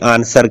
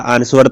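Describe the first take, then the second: First: The w sound is silent in the word. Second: The w sound is pronounced in the word. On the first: The speaker calls it right. "डब्ल्यू का उच्चारण नहीं होता" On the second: The speaker calls it wrong. "आंसर तो नहीं कहते"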